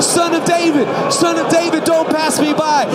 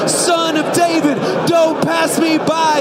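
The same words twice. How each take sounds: First: High, loud plea over a crowd; urgent, full-volume beggar's cry; calling out. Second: High, slow, drawn-out shout; last desperate bellow, each word stretched; all-out cry. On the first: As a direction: shout to catch his attention. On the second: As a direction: cry out with everything in you. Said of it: "cry out with everything in you". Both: Acted.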